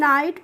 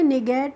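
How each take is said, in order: First: It is said as one syllable, 'nite'. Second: It is said as two syllables, 'ni-gate'. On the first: The speaker calls it right. "इसको हम नाइट पढ़ते हैं" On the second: The speaker calls it wrong. "निगेट नहीं पढ़ते हैं"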